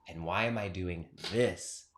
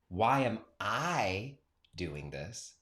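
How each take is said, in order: First: The stress is on the word this. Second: The stress is on the word I.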